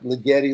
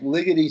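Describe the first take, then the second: First: It is said like 'li-getti', rhyming with spaghetti. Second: It is said like 'liggity', rhyming with lickety. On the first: The speaker calls it wrong. "It's not ligeti like spaghetti" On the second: The speaker calls it right. "it's liggity like liggity split"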